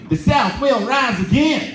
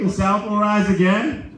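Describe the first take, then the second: First: It is said in a put-on character voice. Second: It is said in his own normal voice.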